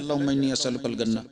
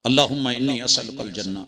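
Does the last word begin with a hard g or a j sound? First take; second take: hard g; j. First: The last word begins with a hard g sound. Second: The last word begins with a j sound.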